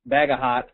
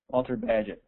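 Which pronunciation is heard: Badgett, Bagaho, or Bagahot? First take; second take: Bagahot; Badgett. First: Three syllables, ending with a t sound. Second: Two syllables, like badge followed by it. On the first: "It's either Bagaho or Bagahot" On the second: "Am I saying it right? ... there you go"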